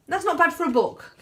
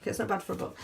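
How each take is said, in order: First: High-pitched, lively selling line; upbeat sales pitch. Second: Quiet aside. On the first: Author pitching her cheap book to viewers, high and upbeat. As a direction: pitch it high to win them over. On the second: Author reassuring viewers about the book's price, softly as an aside. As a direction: drop it to a softer aside. Repeats the selling line as aside. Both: Real, not acted.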